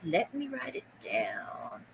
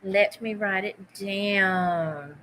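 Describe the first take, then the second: First: Soft slow whisper of Let me write it down; whispered mantra. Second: Said in the usual way. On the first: Shown as a demonstration. Seller whispering her mantra to herself, slow whisper. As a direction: breathe the words to yourself slowly. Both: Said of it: "That's my mantra".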